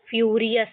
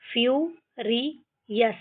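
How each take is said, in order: First: Said in the usual way. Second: फ्यूरियस split into फ्यू, रि, यस; syllable by syllable. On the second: Shown as a demonstration. Teacher shows how to read without Hindi, फ्यूरियस in pieces. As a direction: separate each part of फ्यूरियस. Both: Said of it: "इस तरीके से हम ये सारे words को पढ़ेंगे".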